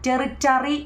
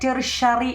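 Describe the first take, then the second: First: The middle consonant is a t sound. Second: The middle consonant is a sh sound. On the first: The speaker calls it wrong. "ടെറിറ്ററി എന്നല്ല" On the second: The speaker calls it right. "ടെറിഷറി എന്നാണ് ഉച്ചരിക്കേണ്ടത്"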